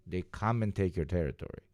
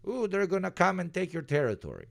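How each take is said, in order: First: Said in the usual way. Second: High-pitched mock-scared warning; mock alarm. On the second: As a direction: play up the threat with a high 'ooh'. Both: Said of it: "that's the threat".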